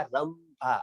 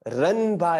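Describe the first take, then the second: First: रंभा slowly with a long final a and m; correct रंभा. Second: रंभा slowly with n, as rənba; wrong रंभा. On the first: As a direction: draw out रंभा as rəmbaa. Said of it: "आसान है". (रंभा धीरे, म के साथ) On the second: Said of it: "तो आप उसको रंभा ही पढ़े". (रंभा गलत, न के साथ) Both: Shown as a demonstration.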